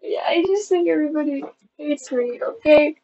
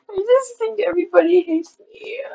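First: Subdued tearful admission, falling at the end. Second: High tearful whine, rising at the end; crying. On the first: Vlogger repeating the fear to viewers, subdued and tearful. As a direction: say it through tears, settling downward. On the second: Vlogger feeling hated by viewers, high tearful whine. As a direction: wail it upward through tears. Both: Real, not acted. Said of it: "I don't know why I'm crying".

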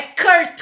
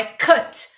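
First: "curt" said with an R sound; the mistaken version "curt" with an R; teacher's wrong example "curt"; wrong take with R. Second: "cut" with the U said as an open A; "cut" like "cat" but with an open A; teacher's correct version "cut" with an A vowel; open A sound. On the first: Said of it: "Não é curt com R". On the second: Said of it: "Abre o A". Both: Shown as a demonstration.

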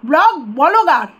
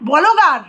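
First: ব্লগ said slowly, then বলগার drawn out with the extra vowel; slow, pointed contrast of ব্লগ and বলগার; slow mocking contrast. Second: বলগার said with an extra vowel, bo-lo-gar, mocking; mocking mispronunciation of blogger. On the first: Shown as a demonstration. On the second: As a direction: sneer out বলগার as the other person says it. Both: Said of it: "ব্লগারটা উচ্চারণ করতে পারিস না যে".

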